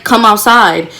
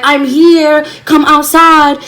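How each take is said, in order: First: Said in the usual way. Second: High, raised call from the street; mock scream calling someone out; retold screaming. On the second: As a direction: holler up at the house, drawn out. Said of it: "so I started screaming".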